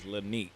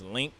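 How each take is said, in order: First: The name is said with two syllables. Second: The name is said with one syllable. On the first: The speaker calls it wrong. "I said it wrong. I thought it was Lanique" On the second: The speaker calls it right. "It was Link"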